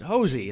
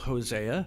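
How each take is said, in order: First: The name is said the family's own way. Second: The name is said the standard biblical way. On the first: This is how the family says the name. "but we all pronounce it Hosey" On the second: This is how the name is usually said. "like the biblical Hosea"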